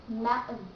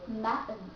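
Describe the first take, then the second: The two takes are said the same way.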